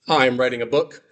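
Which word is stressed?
none. It is said plainly with no special stress.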